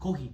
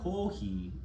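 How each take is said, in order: First: The vowels are short, not stretched out. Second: The vowels are held long and stretched out. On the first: It is not a real word. The speaker calls it wrong. "which is nothing" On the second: It is the word for coffee. The speaker calls it right. "kohi is coffee"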